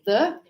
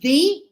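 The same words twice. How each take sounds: First: The word is said plainly, without emphasis. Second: The word is said with extra emphasis. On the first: The thing is meant in general. "I always say the" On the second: A very specific thing is meant. "it's because I'm giving more emphasis"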